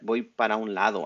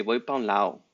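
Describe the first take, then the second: First: Said in the usual way. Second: "pa" instead of "para", the vowel run together with "un"; clipped casual Spanish. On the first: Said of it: "So we'll say". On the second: Shown as a demonstration. A teacher shows students the lazy "pa" in "voy pa un lado". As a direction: drop "para" down to "pa", casual Mexican style. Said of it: "We will say it like that".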